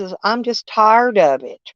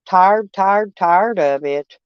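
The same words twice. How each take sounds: First: Said in the usual way. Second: Weary drawn-out repeat. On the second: Real, not acted. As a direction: drag the words, sick of it all.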